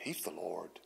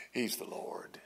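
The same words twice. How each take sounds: First: Said in the usual way. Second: Whispered. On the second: Real, not acted. Preacher repeats the Lord claim.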